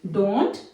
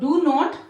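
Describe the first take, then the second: First: It is said as one contracted word. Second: It is said as two separate full words. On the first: "fluency के लिए हम यहां पे इसको डोंट" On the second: "spoken में हम डू और डज का यूज कर रहे हैं और नोट"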